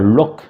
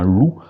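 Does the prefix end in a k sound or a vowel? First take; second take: k sound; vowel. First: The prefix ends with a k sound. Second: The prefix ends with a vowel sound. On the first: The speaker calls it wrong. "on ne dit pas loc en, en breton" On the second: The speaker calls it right. "mais bien loup"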